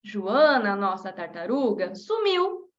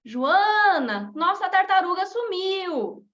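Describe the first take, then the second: First: Name the turtle in passing, then hit sumiu; Joana as turtle's name. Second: "Joana" called, pause, then "nossa tartaruga sumiu" told as news; pause after Joana. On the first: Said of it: "mudo essa vírgula de lugar e dou ênfase". (Joana como nome da tartaruga, ênfase em sumiu) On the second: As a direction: call her name, then give the news. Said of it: "colocar uma vírgula depois do Joana". (chamando Joana, pausa depois do nome) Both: Shown as a demonstration.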